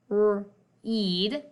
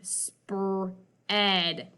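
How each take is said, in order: First: The vowel is said as a long E. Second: The vowel is said as a short E. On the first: The speaker calls it wrong. "that doesn't sound quite right" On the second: The speaker calls it right. "That sounds like a word I know"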